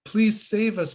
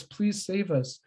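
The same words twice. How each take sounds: First: First plea, higher and a bit fuller; scared boys' first cry for help; pleading call. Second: The same cry for help, trailing off; softer repeated plea. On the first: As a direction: beg for rescue, reaching up. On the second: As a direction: let the repeat drop away. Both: Retold or imitated. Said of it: "they call out".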